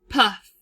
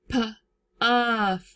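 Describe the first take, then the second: First: The word is said smoothly as one unit. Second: The word is split into two parts with a break.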